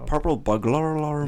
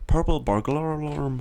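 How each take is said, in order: First: "Purple burglar alarm." higher, in a Scottish try that comes out Irish; hammed-up Celtic lilt on "Purple burglar alarm."; accent sounding Irish. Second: "purple burglar alarm" in a put-on Scottish accent, higher. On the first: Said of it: "It just sounds Irish". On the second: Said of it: "if you try and say it in a Scottish accent". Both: Shown as a demonstration.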